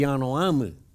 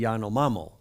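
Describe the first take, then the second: First: The name ends with an 'ee' vowel. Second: The name ends with an 'oh' vowel. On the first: This is how South Americans say the name. The speaker calls it right. "They're really the Yanomami" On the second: This is how Americans say the name. The speaker calls it wrong. "he's just changed it to the Yanomamo"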